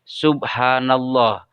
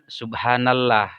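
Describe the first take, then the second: First: The l in Allah is thick and heavy. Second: The l in Allah is thin and light. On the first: The speaker calls it right. "sehingga dibacanya menjadi tebal" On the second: The speaker calls it wrong.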